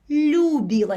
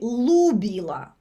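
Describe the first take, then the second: First: The L is soft, with no y sound. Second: The L is hard, with no softening. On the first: "With the apostrophe it's" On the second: "L without the apostrophe it would be"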